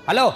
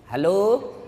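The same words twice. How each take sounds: First: It is said in a firm, curt voice. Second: It is said in a soft, coaxing voice.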